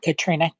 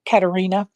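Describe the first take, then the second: First: The name is said with three syllables. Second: The name is said with four syllables. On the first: The speaker calls it wrong. "Not Katrina" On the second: The speaker calls it right.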